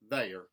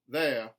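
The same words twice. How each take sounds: First: The R sound is hard and strong. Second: The R sound is dropped. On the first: "mountain, where the R sounds are retained, but they are hardened" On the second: "a general Southern dropped R"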